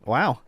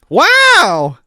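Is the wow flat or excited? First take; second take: flat; excited. First: It is said flat and lackluster. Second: It is said with lively excitement.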